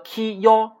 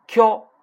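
First: Ki and yo read apart, slowly; split syllables. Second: Q said as one higher, louder syllable kyo; fuse ki and yo into one kyo; blended kyo. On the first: Teacher reading ki and yo apart to students. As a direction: sound out ki then yo separately. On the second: Teacher showing the merged syllable kyo to students. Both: Shown as a demonstration. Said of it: "最后一个ki yo".

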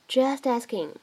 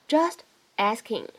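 First: "just asking" run together as "jus-tasking"; linking. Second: "just asking" as two separate words. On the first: Teacher shows natural linking, "just asking" joined as one. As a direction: carry the t of "just" onto "asking". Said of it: "我们可以自然地带一个连读". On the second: Teacher introduces the two words, "just asking" said unlinked. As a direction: say "just", pause, then "asking". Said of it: "这样的两个单词呢". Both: Shown as a demonstration.

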